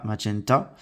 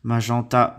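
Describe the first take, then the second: First: "magenta" with English "men" instead of nasal; English pronunciation. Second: Said in the usual way. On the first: Shown as a demonstration. Teacher contrasting French and English for children, English "magenta". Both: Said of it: "on dit magenta en anglais".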